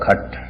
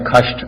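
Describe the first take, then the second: First: It has no 'sh' sound before the final t. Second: It has a 'sh' sound before the final t. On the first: This is the Punjabi form. "Punjabi उच्चारण है इसका" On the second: This is the pure Sanskrit form. "शुद्ध उच्चारण है"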